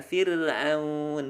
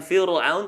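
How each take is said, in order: First: Very slow FIR'AUN with light R; thin R. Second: FIR'AUN with dark R, like fiurul; wrongly thick R. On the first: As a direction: stretch FIR'AUN, keeping the R thin. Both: Shown as a demonstration. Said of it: "tipiskan Fir'aun".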